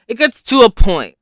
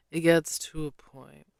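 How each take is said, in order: First: Louder, higher exasperated push; emphatic. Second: Said in the usual way. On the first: Real, not acted. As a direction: hit it hard, fed up.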